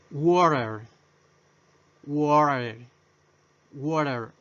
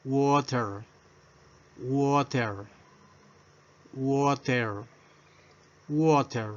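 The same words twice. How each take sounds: First: Water said as "worer", t sounded like a tapped r; flapped t. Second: Water said as "woter" with a clear t; model pronunciation. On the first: Teacher showing the American water, tap for t. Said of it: "se pronuncia como R". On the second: Teacher drilling Water, plain clear model. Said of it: "Pronunciación o fonética". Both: Shown as a demonstration.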